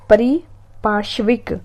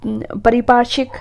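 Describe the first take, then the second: First: परिपार्श्विक said slowly with a rising close; slow careful word. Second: Said in the usual way. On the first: Shown as a demonstration. Teacher repeats परिपार्श्विक slowly for exam students.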